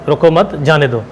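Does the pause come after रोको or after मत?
after मत. The pause comes after मत.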